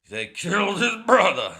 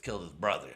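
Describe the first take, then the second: First: High, loud, hammed-up movie anguish; big, cheesy shouted melodrama; mock dramatic outcry. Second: Said in the usual way. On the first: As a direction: wail it like an overblown revenge hero. Hammed-up mocking repeat of plot.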